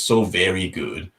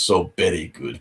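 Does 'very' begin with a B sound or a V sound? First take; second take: V sound; B sound. First: The word very begins with a V sound. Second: The word very begins with a B sound. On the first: "it's supposed to be" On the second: "it becomes so very good because of how Japanese people would actually say"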